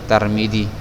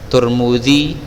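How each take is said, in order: First: The first syllable has a, the second i. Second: The first two syllables have the vowel u. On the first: "orang-orang kita sering membaca Tarmidzi" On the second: "Kalau dia doma, doma juga"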